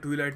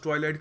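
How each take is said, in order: First: The first syllable rhymes with 'see'. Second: The first syllable rhymes with 'eye'. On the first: The speaker calls it wrong. "ट्वीलाइट नहीं करते" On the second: The speaker calls it right. "इसको pronounce ट्वाइलाइट करते हैं"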